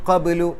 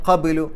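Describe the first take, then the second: No difference in how they are said.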